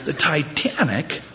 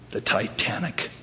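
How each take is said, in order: First: Higher, drawn-out disbelieving repeat; incredulous echo. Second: Soft, understated deadpan reply; deadpan answer. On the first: Punched man echoes the absurd excuse, incredulous. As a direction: stretch it out in mock disbelief. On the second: Man explains his revenge punch in a joke, deadpan. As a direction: drop the reason quietly, no fuss. Joke attacker gives curt reason. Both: Acted.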